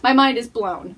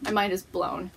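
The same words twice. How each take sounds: First: Loud emphasis. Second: Said in the usual way. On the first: Real, not acted. Repeats the phrase for emphasis.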